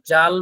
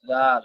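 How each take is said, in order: First: জাল said like the usual Bengali জাল; জাল in the everyday Bengali way; জাল as Bengali speakers usually say it; wrong way first. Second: জাল with a soft opening sound; জাল, the opening sound made gentle; soft zal. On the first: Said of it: "জাল না". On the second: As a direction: say জাল softly, not hard. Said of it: "জাল একটু নরম করে হবে". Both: Shown as a demonstration.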